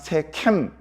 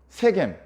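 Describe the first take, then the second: First: The second consonant is an aspirated k. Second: The second consonant is a plain, unaspirated g. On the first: This follows the original-language text. "저는 그냥 편의상 세캠 이렇게 발음을 합니다" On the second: This is how the printed Bible writes it. "세겜이라고 성경에 써 있는데요"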